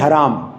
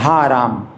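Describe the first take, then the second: First: The first vowel is short. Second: The first vowel is long. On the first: "वो बोलते हैं हराम" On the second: "हम लोग तो हाराम बोलते हैं, हा बड़ा की मात्रा"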